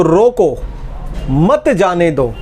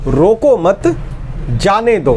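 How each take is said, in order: First: "रोको" alone, pause, then a slow "मत जाने दो"; pause after रोको. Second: "रोको मत" as one unit, pause, then "जाने दो"; pause after मत. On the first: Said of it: "अगर अल्प विराम को बदला जाए". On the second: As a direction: break after मत, keeping it joined to रोको. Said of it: "अल्प विराम जाने दो". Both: Shown as a demonstration.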